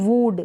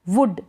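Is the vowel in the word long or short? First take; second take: long; short. First: The vowel is drawn out long. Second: The vowel is kept short. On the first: The speaker calls it wrong. "वुड नहीं पढ़ेंगे, ठीक है, गलत हो जाएगा" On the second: The speaker calls it right. "वुड ना कि"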